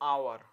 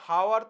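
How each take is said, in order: First: The word begins directly with a vowel sound. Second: The word begins with an audible h sound. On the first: The speaker calls it right. "আমরা বলছি আওয়ার" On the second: The speaker calls it wrong. "আমরা হাওয়ার তো বলছি না"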